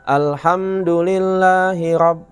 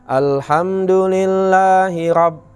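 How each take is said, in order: Both takes have the same delivery.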